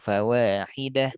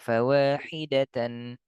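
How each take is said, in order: First: The word ends with a short -h sound. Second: The word ends with a full -tan ending. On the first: "lebih layak kalau fawahidah" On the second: "Boleh nggak kita baca fawahidatan"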